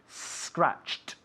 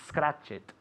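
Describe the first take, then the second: First: The ending is a plain t sound. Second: The ending is an extra 'it' syllable. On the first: The speaker calls it right. "Y se dice scratched" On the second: The speaker calls it wrong. "Not it"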